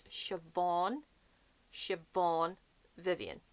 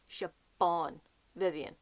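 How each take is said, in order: First: Siobhan with a V, shuh-VAWN, drawn out; correct Siobhan. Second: Siobhan with a hard B, shuh-BAWN, drawn out; mispronounced Siobhan. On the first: Teaching viewers the author's name, Siobhan with V. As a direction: say Siobhan slowly with a V sound. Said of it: "B H makes a V sound". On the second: Quoting others' version of the author's name, mispronounced with B. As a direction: say Siobhan slowly and wrongly with a B. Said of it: "I hear her name being pronounced as". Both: Shown as a demonstration.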